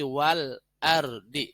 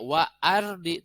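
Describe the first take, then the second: First: A clear L sound is heard before ardi. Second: No L sound is heard before ardi. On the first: The speaker calls it right. "jelas lamnya" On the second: The speaker calls it wrong. "Ini enggak wa ardi"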